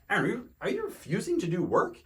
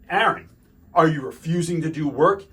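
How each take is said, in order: First: The question sounds soft, gentle and direct. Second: The question sounds harsh and confrontational. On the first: The teacher is asking plainly without hostility. The speaker calls it right. "asking a little bit more gently, but directly" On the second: The teacher is challenging the student. The speaker calls it wrong. "Now this looks like a confrontation"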